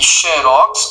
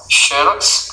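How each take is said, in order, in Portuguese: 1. A tônica está na última sílaba. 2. A tônica está na primeira sílaba. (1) "E Xerox, oxítona, é o nome da empresa" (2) "paroxítona, Xerox seria o fenômeno"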